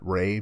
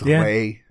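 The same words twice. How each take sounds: First: The name is said with an English pronunciation. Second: The name is said with a Spanish pronunciation. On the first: The speaker calls it wrong. "not Ray, but everybody calls me Ray" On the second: The speaker calls it right. "it's supposed to be in Spanish. It's Ray"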